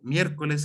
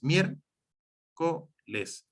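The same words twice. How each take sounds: First: Said in the usual way. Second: "mier-co-les" slowly, split in three; syllable by syllable. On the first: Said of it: "donde la primera sílaba es". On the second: Shown as a demonstration. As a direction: say "mier-co-les" with a gap after each syllable. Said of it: "Tres sílabas también".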